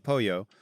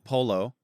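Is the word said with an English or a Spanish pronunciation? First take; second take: Spanish; English. First: The word is said with a Spanish pronunciation. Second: The word is said with an English pronunciation. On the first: The speaker calls it right. "you say pollo" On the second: The speaker calls it wrong. "You shouldn't try to butcher. You can't say like I'm going to have polo"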